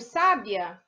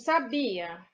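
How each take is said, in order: First: The stress is on the first syllable. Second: The stress is on the middle syllable. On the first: "A antepenúltima" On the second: "O bi é a sílaba mais forte"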